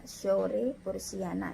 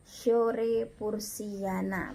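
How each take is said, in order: First: Said in the usual way. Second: "Shore Pursiana" very slowly, syllable by syllable; SH as SY demo. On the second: Shown as a demonstration. Teacher showing how to read it, "Shore Pursiana" in long syllables. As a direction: draw out "Shore Pursiana" with an opening sh glide. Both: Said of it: "cara membacanya ya".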